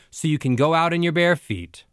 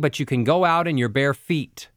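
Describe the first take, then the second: First: The pitch goes down at the end. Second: The pitch stays on one note at the end.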